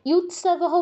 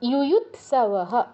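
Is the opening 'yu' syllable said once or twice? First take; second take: once; twice. First: The opening 'yu' syllable is said only once. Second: The opening 'yu' syllable is said twice. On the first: The speaker calls it wrong. "ইয়ুৎসবঃ বললে অবশ্যই ভুল হবে" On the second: The speaker calls it right. "দুটো আছে দুবারই বলতে হবে"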